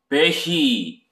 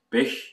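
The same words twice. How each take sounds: First: The ending is a voiced vowel with vocal buzz. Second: The ending is only breath, with no voicing. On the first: The speaker calls it wrong. "성대 유성 그 떨림이 있는 베히, 이라는 모음이 나오면 안 되고" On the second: The speaker calls it right. "그냥 바람만 새는 발음"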